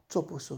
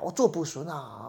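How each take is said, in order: First: It is said quietly and softly, without complaint. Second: It is said in a pent-up, complaining tone. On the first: The speaker calmly accepts the burden. The speaker calls it right. "很轻轻的说的" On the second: The speaker resents the burden. The speaker calls it wrong. "他不是说这样憋着气说的啊"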